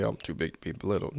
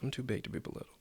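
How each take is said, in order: First: Quick boastful "Oh, I'm too big to be belittled."; show-off version; mock bragging. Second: Whispered "I'm too big to be belittled."; to yourself. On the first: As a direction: brag it fast to everybody. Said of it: "telling everybody". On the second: Shown as a demonstration. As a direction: say it under your breath to yourself. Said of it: "say it to yourself".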